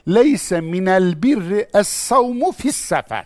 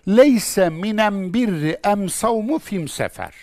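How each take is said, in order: First: The definite article is pronounced with an l sound. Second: The definite article is pronounced with an m sound. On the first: This is the northern Quranic dialect form. "Kur'an Arapçasıyla şöyle söylenir" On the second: This is the southern Yemeni dialect form. "ona kendi lehçesince cevap vermiş"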